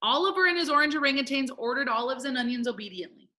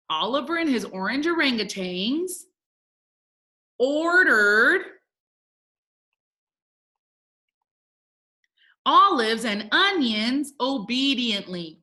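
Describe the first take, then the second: First: Quick, unbroken tongue twister; really fast. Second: Word groups with long pauses; slow dictation. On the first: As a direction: rattle off the whole twister. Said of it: "say it together really fast". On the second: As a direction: read it out slowly while writing along. Teacher reading out while writing. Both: Shown as a demonstration.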